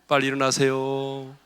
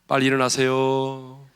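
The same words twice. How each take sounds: Both takes have the same delivery.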